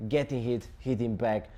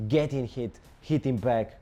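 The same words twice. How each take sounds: The two takes are said the same way.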